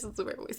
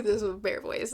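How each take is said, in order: First: Whispered repeat, much softer; whispered aside. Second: Said in the usual way. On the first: Real, not acted. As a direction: mutter it under your breath.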